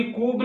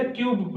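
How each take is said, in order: First: कूब as koob, without a y-glide; कूब, the mistaken koob reading; wrong oo pronunciation. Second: क्यूब as kyoob, with y-glide; क्यूब said kyoob, the corrected reading; correct yoo pronunciation. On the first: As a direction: say cube wrongly as कूब, plain oo. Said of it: "इसको कभी कूब नहीं पढ़ेंगे". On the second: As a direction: put a "you" sound in क्यूब. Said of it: "हमेशा क्यूब पढ़ेंगे". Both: Shown as a demonstration.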